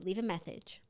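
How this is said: The s sound is pronounced with a lisp. "now do it again with a lisp"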